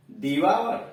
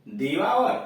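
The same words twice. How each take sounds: First: 'दिवावर' repeated with the same aa ending; pronunciation demo. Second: 'दिवावर' ending in a long aa sound; pronunciation demo. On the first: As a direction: say 'दिवावर' once more for the class. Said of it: "V O यू आर". ('दिवावर' फिर से) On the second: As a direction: model 'दिवावर' after spelling. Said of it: "D A V O यू आर". ('दिवावर' का उच्चारण) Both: Shown as a demonstration.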